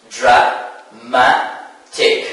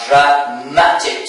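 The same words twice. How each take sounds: First: "dramatic" very slowly as dra, ma, tic with pauses; syllable by syllable. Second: "dramatic" as a whole word, second syllable stressed. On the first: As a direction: break "dramatic" into three separate syllables. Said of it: "So we have three syllables". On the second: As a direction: say "dramatic" unbroken, leaning on the "ma". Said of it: "the stress falls on the second syllable". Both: Shown as a demonstration.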